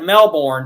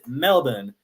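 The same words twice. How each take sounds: First: It is said the American, spelling-based way. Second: It is said the Australian way. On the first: This is how it looks to outsiders. "it looks like Melbourne to us" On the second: This is how locals say it. "if you're in Australia, they will pronounce it Melbourne"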